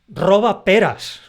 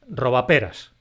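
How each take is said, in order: First: It is said with two separate stresses. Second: It is said with a single stress. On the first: An order or cry about stealing pears. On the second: A little rascal.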